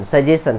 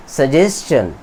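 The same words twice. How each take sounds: First: सजेशन said as "sa-je-shan", plain sh sound with no t; common wrong pronunciation. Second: सजेशन said as "sa-jes-chan" with a clear t-ch sound before the ending; सजेशन carefully, "jes-chan" with the ch crisp; correct pronunciation. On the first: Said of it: "सजेशन नहीं". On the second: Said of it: "right pronunciation". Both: Shown as a demonstration.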